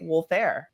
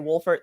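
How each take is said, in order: First: The name ends with a 'fair' sound. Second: The name ends with a 'fert' sound. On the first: "Some people may say Wolfair" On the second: "Some people might say Wolfert"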